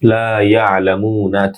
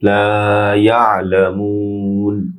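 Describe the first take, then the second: First: It ends in a vowel, with a short 'mu'. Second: It ends in n, with a lengthened 'mu'. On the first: The recitation continues without stopping. "একালিফ" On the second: The reciter stops at this word. "শেষে একালিফ না হয়ে তিন আলিফ লম্বা হবে"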